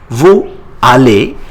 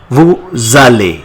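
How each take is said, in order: First: The words are said without a linking z sound. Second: A z sound links the two words together.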